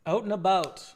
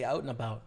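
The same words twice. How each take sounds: First: "Out and about" with the Canadian "about", louder and higher; Canadian accent. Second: Said in the usual way. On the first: Shown as a demonstration. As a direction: play up the Canadian vowel in "about". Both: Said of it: "check your Canadian accent".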